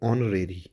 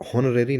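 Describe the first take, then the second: First: The word begins directly with a vowel sound. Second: The word begins with an audible H sound. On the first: The speaker calls it right. "इसको आप पढ़ेंगे ऑनरेरी। एच इसमें silent होगा।" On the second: The speaker calls it wrong. "इसको आप हॉनरेरी नहीं पढ़ेंगे"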